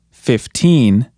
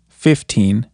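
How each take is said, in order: First: Put-on "fifteen" with "teen" drawn out and stressed. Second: "fifteen" with the first syllable stressed; counting-style "fifteen", weight on "fif". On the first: Teacher contrasting it with fifty, strong stress on "teen" in "fifteen". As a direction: lean hard on "teen" in "fifteen". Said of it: "try putting more emphasis on teen". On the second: Teacher counting teen numbers for learners, first-syllable stress on "fifteen". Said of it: "more emphasis on the first syllable". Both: Shown as a demonstration.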